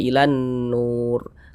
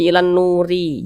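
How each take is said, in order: First: The last word ends cleanly on the r. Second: The last word ends with an added short i. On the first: The speaker calls it right. "tapi dibaca ilan nur" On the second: The speaker calls it wrong. "Jangan dibaca ilan nuri"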